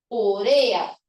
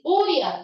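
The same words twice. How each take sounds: First: Slow "urea", u-RE-a; stress on RE. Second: "urea" said OO-rya, first syllable stressed. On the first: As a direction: spell out "urea" slowly, leaning on RE. ("urea" lenta, con acento en RE) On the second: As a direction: put the weight on the U of "urea". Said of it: "No debería decir". ("urea" acentuada en la U inicial) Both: Shown as a demonstration.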